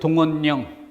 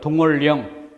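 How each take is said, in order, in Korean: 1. 가운데 자음은 ㄴ으로 발음해요. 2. 가운데 자음은 ㄹ로 발음해요. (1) "니은에서 동원령" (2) "리을로 동월령"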